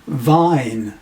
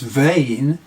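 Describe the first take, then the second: First: The vowel sounds like 'eye' in my. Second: The vowel sounds like 'ay' in day. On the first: This is the Middle English pronunciation. "in Chaucer's time pronounced as vine" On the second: This is the modern pronunciation. "which today we pronounce as vein"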